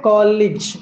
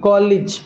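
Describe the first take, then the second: Both takes have the same delivery.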